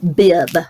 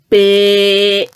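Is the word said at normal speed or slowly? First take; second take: normal; slowly. First: It is said at normal speed. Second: It is said slowly, stretched out.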